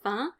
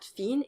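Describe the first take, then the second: First: A nasal vowel with no N sound. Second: The N sound is pronounced at the end. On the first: The speaker calls it right. "the vowel in fin is nasal, so you can't pronounce the N" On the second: The speaker calls it wrong. "not fin"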